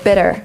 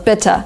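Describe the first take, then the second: First: The middle consonant is a soft D-like tap. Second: The middle consonant is a clear T. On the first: This is how it is said in America. "In American English they say" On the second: This is how it is said in Britain. "in Great Britain they would say still"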